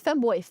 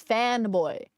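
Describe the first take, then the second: First: Said in the usual way. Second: "fanboy" with a clear open A in fan; corrected FANBOY. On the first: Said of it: "I heard femboy, not femboy, fanboy". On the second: Shown as a demonstration. Streamer corrects a misheard word, "fanboy" with clear A. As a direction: say "fanboy", the first vowel as in fan. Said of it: "not femboy, fanboy".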